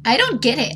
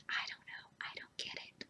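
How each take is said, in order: First: Said in the usual way. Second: Faint unvoiced whisper. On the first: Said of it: "plain take". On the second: Real, not acted. Repeating her bafflement to viewers in a whisper. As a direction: whisper it to yourself. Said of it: "whispered repeat".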